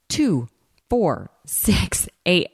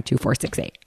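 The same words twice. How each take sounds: First: Imitating a dancer counting out beats; spaced, punchy rhythmic count, slightly raised; dancer's count. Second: Said in the usual way. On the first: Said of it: "she starts counting". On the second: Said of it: "I don't know why she was counting".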